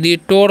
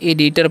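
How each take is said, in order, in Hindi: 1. आखिरी अक्षर में पूरा 'o' स्वर है। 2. आखिरी अक्षर में हल्का 'uh' स्वर है। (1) "एडिटोर नहीं पढ़ना है ना, वो का थोड़ा अ करना है" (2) "एडिटर पढ़ते हैं"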